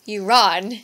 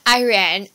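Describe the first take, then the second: First: The second syllable does not rhyme with 'ran'. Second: The second syllable rhymes with 'ran'. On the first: The speaker calls it right. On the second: The speaker calls it wrong.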